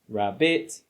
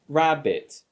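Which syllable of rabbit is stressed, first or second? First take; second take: second; first. First: The stress is on the second syllable. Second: The stress is on the first syllable. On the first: The speaker calls it wrong. "not rabbit" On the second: The speaker calls it right. "Notice how I say it rabbit"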